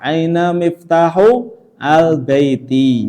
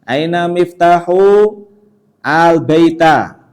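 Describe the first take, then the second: First: The last word ends in an i vowel. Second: The last word ends in an a vowel. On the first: The speaker calls it right. "Yang kedua harus di kasroh" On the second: The speaker calls it wrong.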